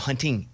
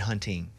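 First: The ending is said with a full ng sound. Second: The ending is said with an n sound. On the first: The speaker calls it right. "no, hunting. Ing, ing, ing" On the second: The speaker calls it wrong. "the ings are two things in the Southern dialect that we don't say"

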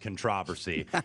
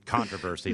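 First: The word is said the European way. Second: The word is said the American way. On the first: "I love the way the Europeans pronounce controversy" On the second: "this American pronunciation of controversy"

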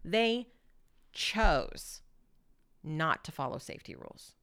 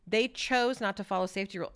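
First: The word 'chose' is set off by pauses. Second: The sentence is said evenly without marking any word. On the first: "You can have pauses before and after" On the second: "I could just say that sentence"

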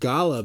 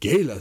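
First: The first vowel is an open 'ah' sound. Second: The first vowel is an 'ay' sound. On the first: "Everything else is ah around the world" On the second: "gay for happy"

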